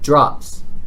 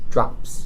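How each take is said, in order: First: The word is said firmly, with confidence. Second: The word is said tentatively, without confidence.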